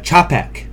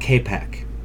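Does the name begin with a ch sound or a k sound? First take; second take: ch sound; k sound. First: The name begins with a ch sound. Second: The name begins with a k sound. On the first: The speaker calls it right. "it's uh, Chapek" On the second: The speaker calls it wrong. "not Kapek"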